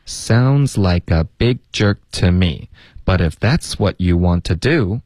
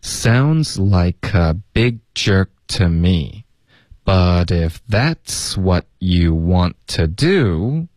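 First: Same sentence at a more natural pace; quicker linked read. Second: Slow, linked teaching read; slow demonstration. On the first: Teacher repeating the whole line for learners, more fluent pace. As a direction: run the linked words together more fluently. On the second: Teacher repeating from the top for learners, slow linked read. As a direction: stretch it out clearly, keeping the words joined. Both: Shown as a demonstration. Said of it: "然后我们从头再来一次".

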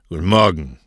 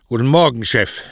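First: Low grunt of a reply; curt, lightly grunted boss's reply; grunted greeting. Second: Louder, higher "Guten Morgen"; an obedient employee's louder greeting; dutiful repeated greeting. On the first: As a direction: grunt "Guten Morgen" back. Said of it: "grunzte Cosme". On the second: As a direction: greet the boss up and out, as ordered. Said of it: "forderte ihn dann auf, seinen Gruß zu wiederholen". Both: A narrator's reading.

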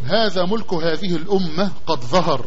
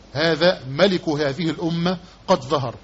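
First: One-syllable "mulk" reading of ملك; MULK with damma, sukun. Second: "malik" reading of ملك, not one syllable; MALIK with fatha, kasra. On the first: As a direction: say ملك as "mulk", u on the meem, no vowel on the lam. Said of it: "بالضم ثم السكون". (نطق «ملك» بضم الميم وسكون اللام: مُلْك) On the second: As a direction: say ملك as "maliku", a after the meem, i after the lam. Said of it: "بالفتح ثم الكسر". (نطق «ملك» بفتح الميم وكسر اللام: مَلِك) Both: Shown as a demonstration.

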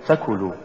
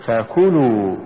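First: فكلوا short and softer, run into one word; wrong stress. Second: فكلوا with ف set apart and كلوا pushed; push after fa. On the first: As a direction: say فكلوا quickly, weight on the ف. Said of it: "ولا تقل". (نطق فكلوا ككلمة واحدة دون دفع الكاف) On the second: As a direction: lean on the ك after ف and draw out فكلوا. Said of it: "قل". (نطق فكلوا بدفع الكاف بعد الفاء) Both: Shown as a demonstration.

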